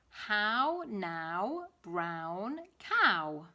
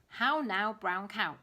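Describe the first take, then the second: First: It is said at a normal pace. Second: It is said a little faster.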